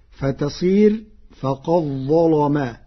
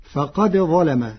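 First: فقد ظلم with the dal folded into the za, faqaẓẓalama; with idgham. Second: Said in the usual way. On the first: Shown as a demonstration. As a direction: merge the dal into the za. (فقد ظلم بإدغام الدال في الظاء) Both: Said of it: "بإدغام الدال في الظاء".

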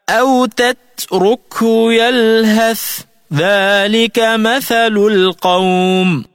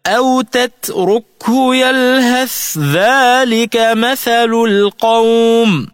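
First: Slow high chant, TH of يلهث ending before ذلك; unassimilated tha. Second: Slow high chant, "يلهث ذلك" joined as yalhadh-dhalik; tha into dhal. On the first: Tajweed teacher reciting the example, TH released and apart in "يلهث ذلك". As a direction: separate "يلهث" from "ذلك", sounding both letters. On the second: Tajweed teacher showing the merger, "يلهث ذلك" run together as DH. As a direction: merge the TH of يلهث into a voiced doubled DH. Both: Shown as a demonstration. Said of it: "فتلفظ هكذا".

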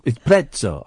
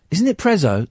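First: "Prezzo" said as PRET-so; TS pronunciation. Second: "Prezzo" with a buzzing Z, no T; soft Z pronunciation. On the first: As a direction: put a crisp ts in the middle of "Prezzo". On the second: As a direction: say "Prezzo" as PREZ-oh. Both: Acted. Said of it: "two Z's".

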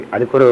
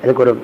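The two takes are said the same way.

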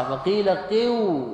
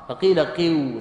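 First: "قو" stretched slowly, higher, the vowel pulled long; drawn-out qu-i demo. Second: Said in the usual way. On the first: Shown as a demonstration. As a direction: draw out "قو" slowly with a raised pitch. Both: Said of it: "كالواو مكسورة".

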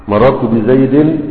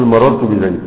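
First: "بزيد" said in full as "بزيدٍ" with kasra and nun; with nunation, slowly. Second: "بزيد" ending on a still dal; pausal stop. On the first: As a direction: draw out "بزيد" with its tanween. ("بزيد" بتنوين الكسر ببطء) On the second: (وقف على "بزيد" بالسكون) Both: Shown as a demonstration. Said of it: "تقول مررت بزيد".

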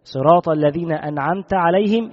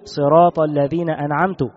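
First: Said in the usual way. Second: أنعمت said as an'amtu, ending in u; أنعمت as an'amtu, the wrong reading; damma on the ta. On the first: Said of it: "بدل من أن يقول". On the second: Shown as a demonstration. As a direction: end أنعمت on a clear u vowel. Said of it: "فيضم التاء".

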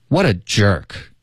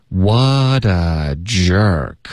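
First: Said in the usual way. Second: Drawn-out, linked model sentence; slow linking demo. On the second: Shown as a demonstration. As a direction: say it very slowly for learners. (慢速连读示范) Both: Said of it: "我们请老师来先示范一下".

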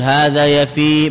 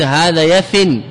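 First: يفي ending in a long held ī, no n; final ي kept. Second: يفن closed with a clear n, yafin; tanween ending. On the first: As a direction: slowly stretch the last vowel of يفي. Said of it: "بإثبات الياء". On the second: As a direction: end يفن on the nasal n, no long vowel. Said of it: "منه الياء للتنوين". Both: Shown as a demonstration.

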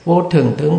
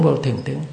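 First: Said in the usual way. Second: Repeated much softer and lower, trailing away; fading repetition. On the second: Shown as a demonstration. Monk demonstrating an inner reminder, fading softly. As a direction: let the reminder sink inward, almost to nothing. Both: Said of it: "Cũng nhắc như vậy".

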